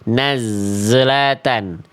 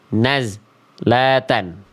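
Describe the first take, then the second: First: The z has an audible bounce after it. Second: The sound is abruptly cut off at the z. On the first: "Yang B salah karena ada pantulan" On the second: "Yang C salah karena terputus"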